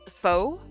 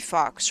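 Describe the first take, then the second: First: It rhymes with go, with no ks sound. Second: It rhymes with box, ending in a ks sound. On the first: This is how people actually read the name. "So I've accepted faux" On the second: This is how the name was intended. "it should be fox"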